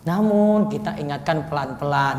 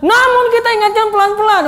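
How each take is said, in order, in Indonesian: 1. Diucapkan dengan lembut, dengan nada yang halus. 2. Diucapkan dengan keras, dengan nada yang tegas. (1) "Nah itu kan baru pelan-pelan kan" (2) "Posisinya nggak pas nadanya itu"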